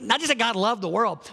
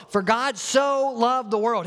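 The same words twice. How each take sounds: First: Said in the usual way. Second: "so" drawn out, high and slow; "so" lifted and stretched, the rest of the line slow; stress on SO. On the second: Shown as a demonstration. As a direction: lean hard on the word "so". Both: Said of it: "He's really trying to put emphasis on his love".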